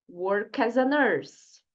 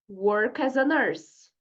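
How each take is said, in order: Both takes have the same delivery.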